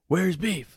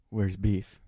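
First: Where's Beef? yelled higher; mock scream. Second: Said in the usual way. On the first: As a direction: call Where's Beef? out in a raised voice. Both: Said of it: "Like, screaming".

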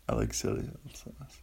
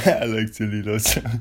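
First: Breathy whispered song line. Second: Said in the usual way. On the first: Shown as a demonstration. Host murmuring the lyric to himself, whispered.

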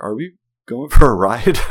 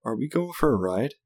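First: Loud, higher mock-kid demand; hammed-up kid question, much louder; impatient child. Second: Higher, imitated little-kid question; put-on kid voice, rising at the end; small child asking. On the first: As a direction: imitate an impatient little boy calling out. Child impatient after repeated bumps. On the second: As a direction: ask like a hopeful child after a tantrum. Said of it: "still huffing and puffing".

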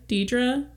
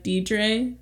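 First: "Deidre" ending in a soft "uh", questioning; "Deidre" with a schwa ending and rising tune; alternative pronunciation. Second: "Deidre" ending in an "ay" sound; "Deidre" with final syllable rhyming with day; unsure pronunciation. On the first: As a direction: say "Deidre" as DEE-druh, asking. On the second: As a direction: say "Deidre" as DEE-dray. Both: Shown as a demonstration. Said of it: "Maybe it's Deidre".

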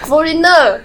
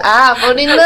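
First: Quoting the sister. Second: Imitating the staff's realization. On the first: Retold or imitated. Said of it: "我姐就". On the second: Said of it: "然后说".

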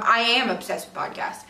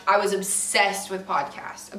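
First: Am stressed as a correction. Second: Said in the usual way. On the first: Real, not acted. Podcast fan correcting herself, stress on am. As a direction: lean on am to insist it is still true. Corrects was to emphatic present am.

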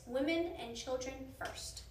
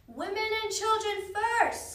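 First: Said in the usual way. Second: High, loud, slow shout; drawn-out shouted announcement; crowd-call shout. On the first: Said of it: "Chapter six". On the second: A narrator's reading. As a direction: call out an order across the deck. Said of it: "someone shouted".

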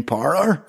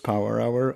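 First: "Power Hour" run together as "par ar"; broad Belfast "par ar" for "Power Hour"; Belfast accent. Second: Said in the usual way. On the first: Retold or imitated. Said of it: "If you're from Belfast". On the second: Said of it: "Oh, you mean Power Hour?".

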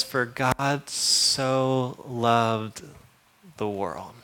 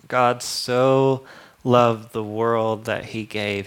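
First: "For God so loved" drawn out very slowly, trailing soft. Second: "loved" stressed, firm and measured. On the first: Preacher savoring the verse, very slow and soft. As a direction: stretch every word of "For God so loved". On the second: Preacher explaining the verse, stressing "loved". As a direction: lean on "loved". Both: Shown as a demonstration.

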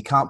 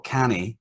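First: "can't" as one syllable with a long ah; standard "can't". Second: "canny" for can't, said as CAN-ee; Glasgow dialect "canny". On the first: Reader rejecting standard spelling for dialect, "can't" with long ah. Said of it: "you can't put can't". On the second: Reader explaining dialect writing, "canny" said the Glasgow way. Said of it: "he writes in his dialect". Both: Shown as a demonstration.

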